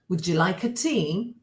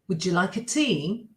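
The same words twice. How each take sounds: Both takes have the same delivery.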